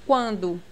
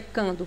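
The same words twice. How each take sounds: First: Quando with a w glide, kwan-do; U sounded. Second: Cando with a plain k, kan-do; U dropped. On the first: Teacher gives the correct quando, U clearly heard. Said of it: "Você escuta esse U". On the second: Teacher warns against saying cando, U dropped. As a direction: say cando with no w glide after the k. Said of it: "Não pronuncia cando". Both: Shown as a demonstration.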